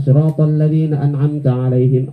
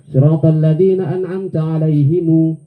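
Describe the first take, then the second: First: The last word ends with the sound him. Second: The last word ends with the sound himu. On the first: One reading tradition recites it this way. "ada nanti yang lain baca" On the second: Another reading tradition recites it this way. "Ada yang lagi baca"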